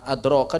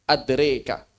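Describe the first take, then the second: First: The vowel after r is an open 'a'. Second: The vowel after r is tilted toward 'e'. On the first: This is the reading without imalah. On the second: This is the reading with imalah.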